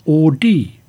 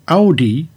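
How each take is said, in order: First: The name is pronounced the Latin way. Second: The name is pronounced the German way. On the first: "The accepted Latin pronunciation is Audi" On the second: "Audi is more natural to German speakers"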